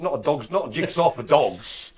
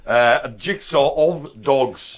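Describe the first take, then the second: First: Said in the usual way. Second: "jigsaw of dogs" said slowly as the fix; corrected, slow and deliberate. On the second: Real, not acted. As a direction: stress "of dogs" to set it right. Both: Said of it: "I'm insane".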